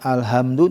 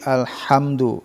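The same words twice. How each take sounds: First: The h is a plain, light breathy h. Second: The h is a tense h from the throat. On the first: The meaning changes into something bad. The speaker calls it wrong. "bukan alhamdu; kalau alhamdu kuha besar" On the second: All praise belongs to God. The speaker calls it right. "tapi alhamdu"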